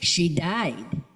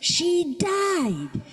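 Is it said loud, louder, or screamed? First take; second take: louder; screamed. First: It is said louder still, near shouting. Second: It is screamed at the top of the voice.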